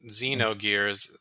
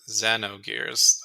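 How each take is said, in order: First: The first syllable sounds like zee. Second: The first syllable sounds like zeh. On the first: The speaker calls it wrong. "not Xenogears" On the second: The speaker calls it right. "it's not Z, it's Ze"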